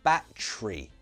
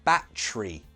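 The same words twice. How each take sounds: First: Said with a British accent, middle syllable squeezed. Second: The same.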